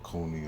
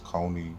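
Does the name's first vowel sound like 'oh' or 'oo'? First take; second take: oo; oh. First: The first vowel sounds like 'oo' in moon. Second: The first vowel sounds like 'oh' in bone. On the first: The speaker calls it wrong. "I know it's not Cooney" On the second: The speaker calls it right. "it's Coney"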